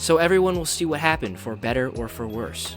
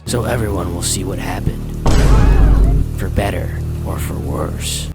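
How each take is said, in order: First: It is read in a plain, neutral tone. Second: It is read in a dark, ominous tone.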